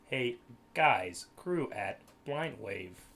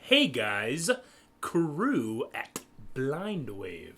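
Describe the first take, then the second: First: It is said in a flat robotic voice. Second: It is said in a natural human voice. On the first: "with the robot voice pronounce it for you" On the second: "We say"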